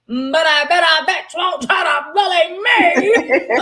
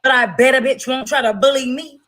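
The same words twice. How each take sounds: First: Laughing shout. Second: Said in the usual way. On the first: Shown as a demonstration. Repeating her own line as a laughing shout. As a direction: belt it out again, laughing.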